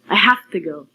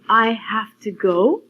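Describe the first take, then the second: First: 'Have to' is reduced to 'hafta'. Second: 'Have to' is pronounced fully and carefully. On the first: "you can say" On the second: "instead of saying"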